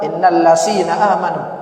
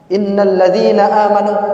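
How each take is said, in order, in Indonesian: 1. Konsonan tengah itu bunyi s. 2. Konsonan tengah itu bunyi z. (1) "menyebut za itu jadi sa" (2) "menyebut za"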